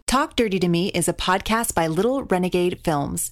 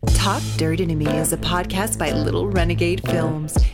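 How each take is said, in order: First: It is read in a plain voice. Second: It is read in a sultry, sexy voice.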